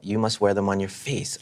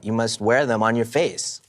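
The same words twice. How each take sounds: First: The word face is not especially stressed. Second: The word face is strongly stressed.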